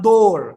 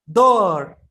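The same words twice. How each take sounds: First: The vowel sounds like a rounded 'oh'. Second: The vowel sounds like an open 'ah'. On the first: The speaker calls it wrong. "Bukan door" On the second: The speaker calls it right. "Tapi ada da"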